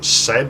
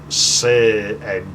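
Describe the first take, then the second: First: The vowel is short, rhyming with bed. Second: The vowel is long, rhyming with paid. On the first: "it's not like said" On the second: "it's like said ... if you pay something ... you paid it"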